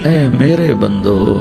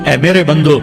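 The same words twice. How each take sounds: First: It is said in a tender, loving tone. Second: It is said in a plain, flat tone. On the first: The speaker calls it right. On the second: The speaker calls it wrong.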